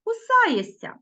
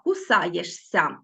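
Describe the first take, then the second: First: "кусаєшся" pronounced naturally as кусаєсся, pitched higher; spoken pronunciation. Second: "кусаєшся" said slowly, letter by letter, with ш then ся; slow careful reading of "кусаєшся" as it is written; spelling pronunciation. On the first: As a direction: say "кусаєшся" the way it really sounds, ш dissolving into long сь. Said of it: "а вимовляємо". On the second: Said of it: "Ми пишемо «шися»". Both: Shown as a demonstration.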